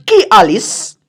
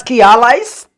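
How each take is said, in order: First: "allies" said like "Alice", ending in -is; variant pronunciation. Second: "allies" said AL-eyes, ending in a long -ize; alternative pronunciation. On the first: Speaker offers viewers one way of saying it, "allies" as AL-eess. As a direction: say "allies" as AL-eess, with a short last vowel. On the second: Speaker corrects to another way of saying it, "allies" as AL-eyes. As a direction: rhyme the end of "allies" with "eyes". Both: Shown as a demonstration. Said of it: "depending on how you pronounce it".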